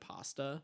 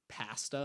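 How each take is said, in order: First: The word is said in a non-Canadian accent. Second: The word is said in a Canadian accent. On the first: This is the usual way to say it. "instead of pasta" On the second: This is how the campers say it. "I come back with a Canadian accent, so like they say like pasta"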